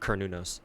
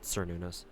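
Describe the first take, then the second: First: The name begins with a hard K sound. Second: The name begins with a soft S sound. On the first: The speaker calls it right. "pronounced with hard K's" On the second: The speaker calls it wrong.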